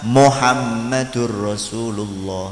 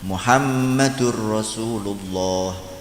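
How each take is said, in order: First: The first vowel is an 'o' sound. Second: The first vowel is a 'u' sound. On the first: The speaker calls it wrong. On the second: The speaker calls it right.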